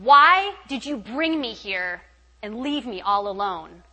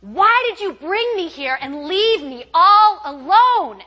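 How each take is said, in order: First: Slow, drawn-out accusation, louder; retold anger, raised voice; anguished cry to God. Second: High, loud, drawn-out anguished yell; full-voiced re-enacted wail of protest; screaming at God. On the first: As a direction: demand an answer from God, stretching the words. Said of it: "I kinda got mad at God". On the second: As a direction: scream it out slowly, word by word. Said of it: "I'm bawling and I'm screaming".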